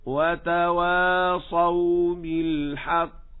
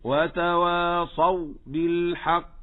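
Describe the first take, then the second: First: Very slow chant, final waw of وتواصوا flowing unbroken into بالحق; flowing soft waw. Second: Slow وتواصوا, last waw choked off before بالحق; muffled soft waw. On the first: Teacher gives the correct recitation, flowing soft waw. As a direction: let the last waw of وتواصوا ring on, slowly. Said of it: "الصواب". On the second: Teacher shows what not to say, muffled waw. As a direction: cut the sound short on the final waw of وتواصوا. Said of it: "كتم الصوت فيها". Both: Shown as a demonstration.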